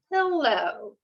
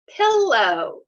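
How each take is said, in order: First: Said in the usual way. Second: Pillow said louder with a popped p; a teacher modelling a word for kids; teacher's model word. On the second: Shown as a demonstration. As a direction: punch the p of Pillow clearly. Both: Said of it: "Say it to yourself".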